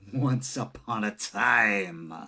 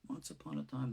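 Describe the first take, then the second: First: It is said in a scary, ominous manner. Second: It is said plainly, without added emotion. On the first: "if I want to make it scarier" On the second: "I can easily say the words"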